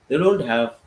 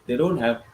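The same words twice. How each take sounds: The two takes are said the same way.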